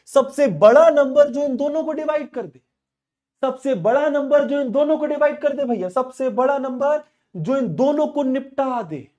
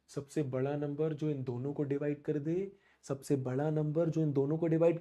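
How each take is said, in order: First: High and loud insistent repeat; emphatic repeat. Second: Soft, lower, hushed repeat. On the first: Real, not acted. Teacher repeating HCF question forcefully to class. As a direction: hammer the question again. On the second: Shown as a demonstration. Teacher softly repeating question as students close eyes. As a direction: let it sink in quietly. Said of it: "आंखें बंद कर".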